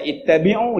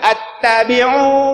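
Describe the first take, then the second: First: The word begins with an 'i' vowel. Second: The word begins with an 'a' vowel. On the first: The speaker calls it right. "Orang baca ittabi'u" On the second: The speaker calls it wrong. "dia baca attabi'u"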